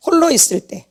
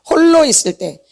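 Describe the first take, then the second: No difference in how they are said.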